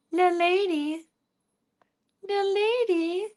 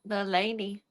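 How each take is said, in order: First: "The lady" in a much higher squeaky pet voice; cooing "The lady" sing-song; high cat-talk voice. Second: Said in the usual way. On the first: Shown as a demonstration. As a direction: pitch "The lady" way up like baby talk.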